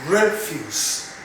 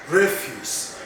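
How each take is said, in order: The two takes are said the same way.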